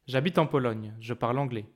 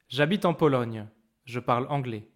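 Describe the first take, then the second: First: It is spoken faster with small breaks. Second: It is spoken slowly with clear breaks.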